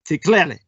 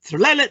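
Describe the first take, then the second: First: Each syllable is said slowly and fully. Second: The syllables are said fast and run together. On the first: The speaker calls it wrong. "You'd think that would spell something like" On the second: The speaker calls it right. "you have to pronounce it very quick, quickly. You almost slur it"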